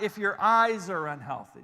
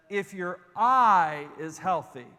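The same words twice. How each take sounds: First: "eyes" marked plural, firm contrast; stress on eyes. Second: "eye" held slow and louder, singular; stress on eye. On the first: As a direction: set "eyes" against the single eye. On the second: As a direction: lean slowly on "eye", just one. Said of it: "one singular eye". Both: Shown as a demonstration.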